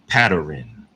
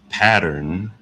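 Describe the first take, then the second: First: An extra vowel is inserted before the final 'n'. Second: The ending 'rn' is said without an added vowel. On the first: "they'll say pattern" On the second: "instead of pattern"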